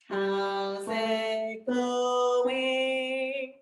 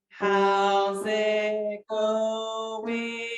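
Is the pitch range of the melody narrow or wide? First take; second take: wide; narrow. First: The pitch moves in larger steps. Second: The pitch moves in very small steps. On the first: The speaker calls it right. "we increased the intervals, ... a little bit more natural, like this" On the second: The speaker calls it wrong. "Start out with very, very small intervals. It sounds pretty robotic"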